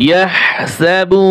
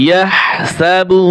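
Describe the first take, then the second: The two takes are said the same way.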